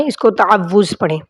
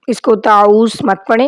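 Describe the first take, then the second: First: تعوذ with a full ta-aa-wuz; correct taawwuz. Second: تعوذ said short as taoz; wrong taoz. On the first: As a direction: say تعوذ fully, the right way. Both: Shown as a demonstration.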